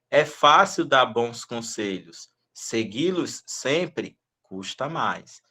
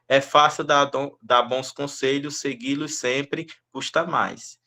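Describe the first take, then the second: First: There is a pause after "conselhos". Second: There is no pause after "conselhos". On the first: The meaning is easy to understand. The speaker calls it right. "quando eu faço as vírgulas, que eu faço as pausas" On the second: The meaning becomes confusing. The speaker calls it wrong. "Agora se eu leio assim"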